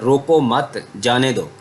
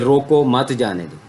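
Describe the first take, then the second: First: There is a break after मत. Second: There is a break after रोको.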